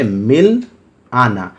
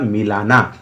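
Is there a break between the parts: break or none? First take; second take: break; none. First: There is a short pause between the two parts. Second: The parts run together with no pause between them. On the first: Two separate words are meant. "अगर मिल और आना के बीच में विराम लगाते हैं या pause लेते हैं" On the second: One word with a different meaning is heard. "अगर उच्चारण में आपने गलती कर दी तो हो जाएगा मिलाना"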